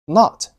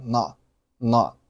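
First: Said in the usual way. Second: "not" stopped before the t bursts; unreleased t. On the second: Shown as a demonstration. Teacher showing learners lost plosion, unreleased t in "not". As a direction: cut "not" off with the tongue on t. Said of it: "失去爆破的现象".

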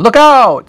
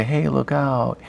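First: Loud, high urgent shout of look out; a teacher showing the right way to exclaim it; look out with expression. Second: Said in the usual way. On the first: Shown as a demonstration. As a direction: put real alarm into look out. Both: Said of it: "You're gonna use it with some expression".

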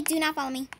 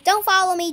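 First: "Do not" spelled out, softer and lower; a hushed emphatic "Do not follow me"; stressing do not. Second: Said in the usual way. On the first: Real, not acted. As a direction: spell out "Do not" as a quiet warning.

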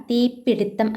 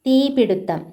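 First: തീപിടുത്തം said slowly and carefully as the right form; slow careful model of തീപിടുത്തം; correct form. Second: തീപിടുത്തം said as the wrong form, raised high. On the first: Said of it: "ആണ് ശരിയായിട്ടുള്ളത്". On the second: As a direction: call out തീപിടുത്തം as the form to avoid. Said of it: "തീപിടുത്തം അല്ല". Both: Shown as a demonstration.

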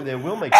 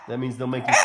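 First: "will" punched loud and firm; correcting yourself, hitting "will"; stress on will. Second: Said in the usual way. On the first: Shown as a demonstration. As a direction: lean hard on "will". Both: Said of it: "no, they will make you".

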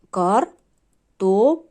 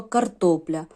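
First: Slow «картопля», broken into three syllables with clear pauses; по складах. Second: Said in the usual way. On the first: Shown as a demonstration. (вимовити «картопля» повільно, по складах, з паузами) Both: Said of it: "Три склади".

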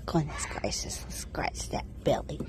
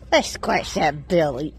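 First: Soft whisper to the goat; whispered coo while scratching a goat's belly. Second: Said in the usual way. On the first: Real, not acted. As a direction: whisper it tenderly.

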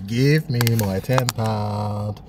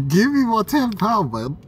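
First: Each word drawn out slowly; slow demand. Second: Raised voice, pitched high and loud; loud demand. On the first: Man repeating his demand to the cash machine, slow and deliberate. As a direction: spell it out slowly, as if to a dense machine. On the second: Man yelling at the cash machine for his tenner, loud and high. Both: Real, not acted.

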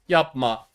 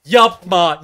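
First: Said in the usual way. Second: Yapma yelled higher and much louder; shouted plea. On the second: Real, not acted. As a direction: scream yapma at the screen. (bağırarak yapma)

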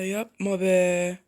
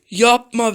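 First: Drawn-out, deflated plea; dragged-out groan of "don't"; slow disbelief. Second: Gasp, then a sharp "Yapma be" pitched high; startled cry at the game; shocked gasp. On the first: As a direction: stretch it out in disbelief. Repeats dismay slowly. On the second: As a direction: blurt it out after a gasp. Gasped take versus slow take. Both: Real, not acted.

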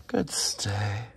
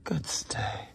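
First: Said in the usual way. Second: Breathy whispered good stay; whispered praise. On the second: Real, not acted. Trainer whispers praise to the resting dog. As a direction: hush the praise so he keeps still.

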